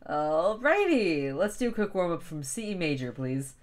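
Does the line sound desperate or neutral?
neutral. The line sounds plain and neutral.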